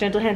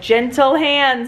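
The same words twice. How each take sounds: First: The voice is soft and calm. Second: The voice is raised and sharp. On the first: The speaker calls it right. "instead of saying like gentle hands" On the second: The speaker calls it wrong. "Like the tone goes up a little bit more"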